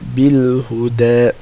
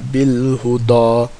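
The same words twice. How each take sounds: First: The dal is pronounced light, tongue back lowered. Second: The dal is pronounced heavy, tongue back raised. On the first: The speaker calls it right. "because dal is not in خصة ضغط قذ" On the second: The speaker calls it wrong. "it's not بالهدى"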